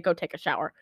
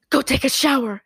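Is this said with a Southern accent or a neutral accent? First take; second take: neutral; Southern. First: It is said without a Southern American accent. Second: It is said with a Southern American accent.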